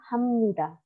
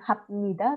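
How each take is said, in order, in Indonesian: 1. Konsonan sebelum 'nida' berbunyi M. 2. Konsonan sebelum 'nida' berbunyi B. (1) "tapi hamnida" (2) "Jadi bukan habnida"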